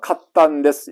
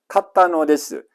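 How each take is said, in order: First: The particle 'no' is reduced to a single 'n'. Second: The particle 'no' is said as a full syllable. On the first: "이 녀석을 응으로 발음을 하자" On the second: "별 힘이 들어갑니다. 발음하기가 힘듭니다"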